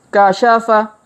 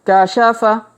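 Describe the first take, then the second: The two takes are said the same way.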